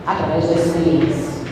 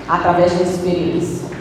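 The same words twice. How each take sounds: The two takes are said the same way.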